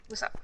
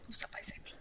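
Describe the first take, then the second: First: Said in the usual way. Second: Whisper. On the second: Real, not acted. Greeting repeated as a whisper.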